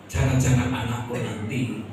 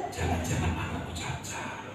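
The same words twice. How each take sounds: First: Said in the usual way. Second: Breathless whisper of dread; hushed, scared inner voice; fearful whisper. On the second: Retold or imitated. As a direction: whisper it like a frightened thought you dare not say.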